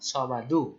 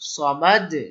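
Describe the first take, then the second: First: The word ends with a short u vowel. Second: The word ends on a bounced, echoing d. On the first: The reading continues without stopping. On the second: The reader stops at the end of the verse.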